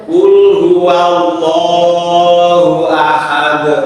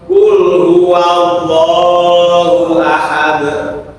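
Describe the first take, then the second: No difference in how they are said.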